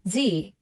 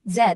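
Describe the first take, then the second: First: Z said as "zee"; American pronunciation of Z. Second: Z said as "zed"; British pronunciation of Z. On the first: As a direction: say Z the American way, rhyming with "see". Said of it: "in the American accent is pronounced". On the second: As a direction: say Z the British way, ending in a D, rhyming with "bed". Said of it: "whereas in the British accent". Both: Shown as a demonstration.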